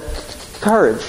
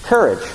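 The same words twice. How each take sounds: First: Stammered lion impression. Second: Said in the usual way. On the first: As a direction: stutter the first sound, then land COURAGE higher. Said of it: "as the line said". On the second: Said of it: "I believe it's simply this".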